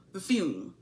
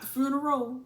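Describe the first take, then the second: First: "funeral" squeezed into a short, falling "fyoom"; corrected pronunciation. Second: "funeral" drawn into three syllables ending in -oh; wrong pronunciation. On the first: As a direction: say "funeral" as one lower syllable, FYOOM. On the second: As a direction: say "funeral" as FYOO-nuh-roh. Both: Shown as a demonstration. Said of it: "not the funeral".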